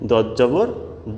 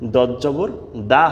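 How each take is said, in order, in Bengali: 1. শেষ স্বরটি একটি গোলাকার 'o' ধ্বনি। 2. শেষ স্বরটি একটি খোলা 'a' ধ্বনি। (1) "দদ জবর দ হয়" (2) "দদ জবর দা হয় না"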